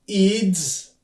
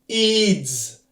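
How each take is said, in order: No difference in how they are said.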